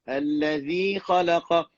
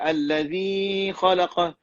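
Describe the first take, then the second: First: The long vowel is held for two counts. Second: The long vowel is held for three counts. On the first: The speaker calls it right. "Dua je. Tak boleh nak lebih" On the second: The speaker calls it wrong. "dah pergi tiga harakat alif"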